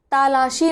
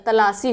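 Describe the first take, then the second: First: तालाशी with a long aa in the first syllable; wrong long vowel. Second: तलाशी with a short first syllable; correct short vowel. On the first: Teacher voicing the students' wrong form तालाशी with a long ta. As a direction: stretch the ता in तालाशी as the common mistake. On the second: Teacher giving the correct तलाशी with a short ta. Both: Shown as a demonstration. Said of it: "नहीं होता बल्कि क्या होता है".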